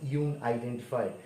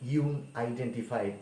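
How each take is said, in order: Both takes have the same delivery.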